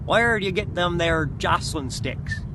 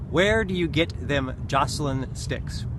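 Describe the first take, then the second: First: It is read in a put-on character voice. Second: It is read in his plain voice.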